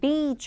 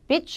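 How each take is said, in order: First: The vowel is held long. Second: The vowel is short and clipped. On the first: It means the seashore. The speaker calls it right. "아니 beach 해야 되죠" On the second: It sounds like a word for a bad person. The speaker calls it wrong. "길게 발음을 안 하시면은 그 어떤 불상사가"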